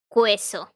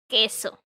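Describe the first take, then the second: First: A W sound follows the K sound. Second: No W sound follows the K sound. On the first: The speaker calls it wrong. "not pronounce it queso or cuiero. Because no, it's not pronounced that way" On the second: The speaker calls it right. "It's queso and quiero"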